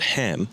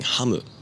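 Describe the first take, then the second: First: It ends on the m sound, no added vowel. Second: It ends with an added u vowel after m. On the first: This is how English speakers say it. "which we as English speakers think is a very simple word to pronounce" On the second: This is how a Japanese-only speaker says it. "a person who only speaks Japanese, that at sound doesn't exist in the language. So they end up saying hamu"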